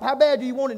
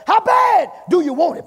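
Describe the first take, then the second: First: Said in the usual way. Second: "How bad" shouted high and long, then "do you want it" drops; emphasis on HOW BAD. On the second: Real, not acted. Preacher pushes church to want it, emphatic shout on "How bad". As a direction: hit "How bad" with a loud, high holler. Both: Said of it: "Put some emphasis on it".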